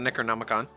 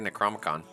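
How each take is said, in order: First: The middle syllable 'no' is pronounced. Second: The middle syllable 'no' is left out. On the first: The speaker calls it right. "I gotta read it to be able to say it right" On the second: The speaker calls it wrong. "I always want to say Necromicon"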